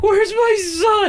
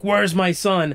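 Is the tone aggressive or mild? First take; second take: mild; aggressive. First: It is said in a mild, unaggressive tone. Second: It is said in an aggressive tone.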